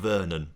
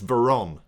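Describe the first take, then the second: First: The name is said with an extra middle n. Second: The name is said without a middle n sound. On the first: The speaker calls it wrong. "not Vernon. ... putting an extra N in his name" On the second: The speaker calls it right. "It's Veron"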